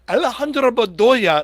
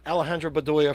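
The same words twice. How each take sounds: First: The name is said with an exaggerated Spanish accent. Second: The name is said with a plain American accent. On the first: The person is treated as if from Colombia. "like he thought he was from Colombia" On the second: The person is an American from New Jersey. "it wasn't Alejandro Bedoya from New Jersey"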